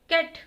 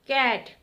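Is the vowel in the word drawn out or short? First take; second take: short; drawn out. First: The vowel is short and said abruptly. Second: The vowel is slow and glides into aa. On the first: The speaker calls it wrong. "कैट ऐसे नहीं बोलते" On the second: The speaker calls it right. "अगर ए के बाद आ की आवाज आ रही है"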